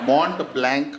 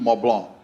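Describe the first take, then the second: First: The name has an anglicized, spelled-out pronunciation. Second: The name has a French-style pronunciation. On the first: This is how people locally say it. "આપણે ગુજરાત ... મોન્ટ બ્લેન્ક આમ" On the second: This is the original way to say it. "Original pronunciation"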